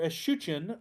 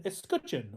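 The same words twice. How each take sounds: First: Alternative pronunciation of "escutcheon". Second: Said in the usual way. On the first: Shown as a demonstration. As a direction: offer "escutcheon" as the other accepted pronunciation. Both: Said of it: "depending on how you wanna pronounce that".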